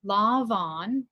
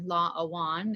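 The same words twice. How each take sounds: First: Lá bhan with a v sound; standard pronunciation. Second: Lá awan with a w sound; Connacht pronunciation. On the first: Learner reading the usual form, Lá bhan with a v. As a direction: say bhan with a v, not w. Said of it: "or lá awan if you're in Connacht". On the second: Learner giving the Connacht form, lá awan with a w. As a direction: say awan with w in place of v. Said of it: "if you're in Connacht". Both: Shown as a demonstration.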